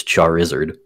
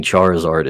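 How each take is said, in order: First: Charizard said the mistaken way; old mispronunciation. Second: Said in the usual way. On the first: Shown as a demonstration. Game designer admitting a long-held Pokemon mistake, Charizard mispronounced. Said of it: "went for a long time pronouncing". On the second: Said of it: "pronouncing Charizard as Charizard".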